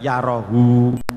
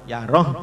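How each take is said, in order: First: The word ends with a short u vowel. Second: The word ends on the h with no vowel. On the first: The speaker calls it wrong. "tidak diwakafkan yarohu" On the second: The speaker calls it right. "hu dan hi harus tetap disukun"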